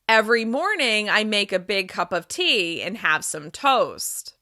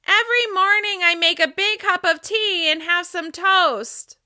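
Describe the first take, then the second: First: The voice resonates in the center of the mouth. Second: The voice resonates high up in the head. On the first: "Now I'll drop back down to my normal resonance" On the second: "of my head"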